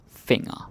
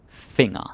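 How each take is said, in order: No difference in how they are said.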